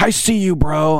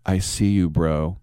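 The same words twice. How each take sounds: First: Retold yelling. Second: Said in the usual way. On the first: Bartender hollering at the drinks crowd, high mock yell. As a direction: holler it much higher over the crowd. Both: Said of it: "they're yelling at people".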